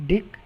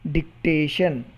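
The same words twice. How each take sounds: First: "dictation" with long gaps: dic, ta, tion; syllable by syllable. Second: Said in the usual way. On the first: Shown as a demonstration. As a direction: pause well after each syllable of "dictation". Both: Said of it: "three syllables".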